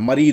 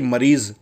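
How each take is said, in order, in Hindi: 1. इस शब्द का अंत d की आवाज़ से होता है। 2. इस शब्द का अंत z की आवाज़ से होता है। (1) "जा ना होकर के दा हो जाता है" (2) "मरीज जेड निकालते हैं"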